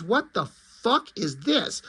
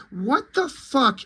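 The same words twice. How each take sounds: First: Said in the usual way. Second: High, slow What the fuck; exasperated disbelief. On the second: Real, not acted. Reviewer ranting about the Robbins plug, stretched and high.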